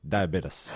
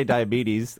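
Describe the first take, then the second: First: Diabetes ending in "bit-iss"; American "diabetes" imitation. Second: Diabetes ending in "bee-teez"; usual "diabetes" pronunciation. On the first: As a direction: say diabetes with a short i, closing on an s. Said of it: "somebody in the States goes". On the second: Shown as a demonstration. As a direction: say diabetes with a long ee, closing on a z. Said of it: "but we say diabetes".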